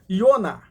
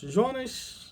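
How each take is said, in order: First: The name begins with a Y sound. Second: The name begins with a J sound. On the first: This is closer to the Hebrew form of the name. "Iona, Iona, Iona" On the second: This is the Portuguese form of the name. "ele esquece o J porque o J não vem do hebraico"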